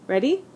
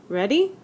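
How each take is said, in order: No difference in how they are said.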